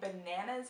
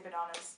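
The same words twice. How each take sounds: First: The word is said with an American accent. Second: The word is said with a British accent. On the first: "I can't say bananas anymore" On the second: "I can't unhear the British pronunciation"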